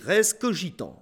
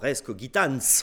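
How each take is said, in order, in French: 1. Il utilise la prononciation du latin du XVIIe siècle. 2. Il utilise la prononciation moderne du latin. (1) "au XVIIe siècle, on dit res cogitans" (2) "on dirait maintenant res cogitans"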